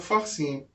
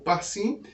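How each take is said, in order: First: The word begins with an F sound. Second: The word begins with a P sound. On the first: "fica com a pronúncia de F. Então fica a pronúncia correta" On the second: "cai o Dakesh da palavra é, Pérez, ou Parsim"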